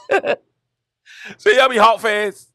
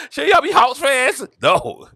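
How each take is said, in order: First: Put-on high kid voice, words dragged out very slowly; stretched-out kid question. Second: Put-on higher kid voice, a bit slow; puzzled kid. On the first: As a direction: pull every word long, mock-pleading. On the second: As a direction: ask it like a confused kid, a little drawn. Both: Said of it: "I was like".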